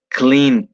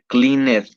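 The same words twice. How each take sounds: First: The ending is said as a short T sound. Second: The ending is not said as a T sound. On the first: The speaker calls it right. "se dice cleaned, ¿sí? Así es como se pronuncia" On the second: The speaker calls it wrong. "no se dice cleaned, no, eso no está bien"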